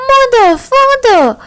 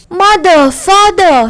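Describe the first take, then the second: First: Put-on very high child's shriek; highest-pitched child shriek. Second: Put-on a child's higher wail, less frantic. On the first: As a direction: scream for his parents at the top of his voice. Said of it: "shrieked at the highest pitch of his voice". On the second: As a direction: call out for the parents, wailing. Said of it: "he wailed".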